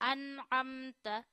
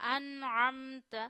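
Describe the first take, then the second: First: The middle consonant is a plain glottal stop. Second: The middle consonant is from the mid throat. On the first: The speaker calls it wrong. "अन अमता नहीं पढ़ना" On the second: The speaker calls it right. "आइन गले के दरमियान से अदा करिए"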